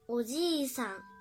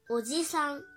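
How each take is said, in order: First: The 'i' after 'j' is held long. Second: The 'i' after 'j' is cut short. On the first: It means grandfather. The speaker calls it right. "一段长音是加一，发音也发一" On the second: It means uncle. The speaker calls it wrong. "如果发音没发好的话呢，就会变成"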